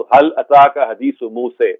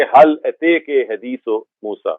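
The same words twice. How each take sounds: First: هل اتاک slowly with an open a in اتاک; هل اتاک حدیث موسیٰ, fath reading, slow. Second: هل اتیک with the vowel of اتیک bent toward e; هل اتیک حدیث موسیٰ read with imala. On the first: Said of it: "فتح اور امالہ کے ساتھ پڑھا". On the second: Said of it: "ایسے کر کے پڑھیں گے". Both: Shown as a demonstration.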